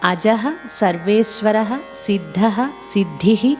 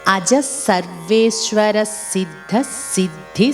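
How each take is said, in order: First: Each name is separate, ending in a breathy h. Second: The names run together without final h sounds. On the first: "విడదీసి పలుకుతున్నప్పుడు ... ఇలా విసర్గలతో పలికాం" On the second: "ఆ విసర్గలు లేకుండా ... ఇలా పలికితే వినడానికి బాగుంటుంది"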